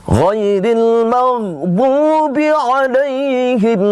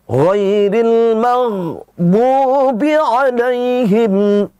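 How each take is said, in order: No difference in how they are said.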